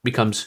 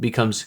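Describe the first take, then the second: The two takes are said the same way.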